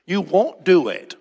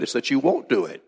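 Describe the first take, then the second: First: "You won't do it" slower and higher, each word weighted; emphatic repeat. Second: Said in the usual way. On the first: Real, not acted. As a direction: drive home "You won't do it" slowly, word by word.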